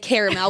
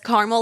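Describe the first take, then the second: First: It is said with three syllables, not carmul. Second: It is said with two syllables, like carmul. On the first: This is how the speaker says it. "I say caramel" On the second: This is how the speaker's father says it. "My dad says caramel ... like C A R M U L"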